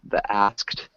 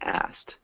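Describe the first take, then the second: First: The full k and t cluster is pronounced. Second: The k sound is dropped from the cluster. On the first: It is the full, harder form. "the A S K T sound is really difficult" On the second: It is the faster, easier everyday form. "you could probably get away with saying asked"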